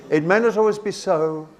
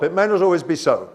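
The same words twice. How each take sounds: First: "so" held up, then a little break; semicolon pause. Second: "so" dropped in pitch as a final stop; brisk line, closing firmly on a falling "so"; full stop ending. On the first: Teacher shows the class a semicolon's break, "so" left unfinished. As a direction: leave "so" hanging, as if more follows. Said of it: "It's for a little break". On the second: Teacher shows the class what a semicolon isn't, falling full stop on "so". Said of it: "it's not like a full stop". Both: Shown as a demonstration.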